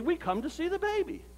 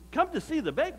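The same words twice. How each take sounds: First: High-pitched, matter-of-fact answer; voiced visitors' reply, pitched up; simple announcement. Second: High questioning echo with rising end; mock puzzlement, pitched up; puzzled echo. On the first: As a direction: state it as the obvious reason for visiting. Visitors answer the narrator's question. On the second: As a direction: repeat it back as a doubtful question. Narrator echoes visitors in disbelief.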